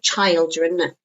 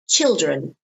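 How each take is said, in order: First: The first vowel is a long diphthong. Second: The first vowel is a short vowel. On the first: The speaker calls it wrong. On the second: The speaker calls it right.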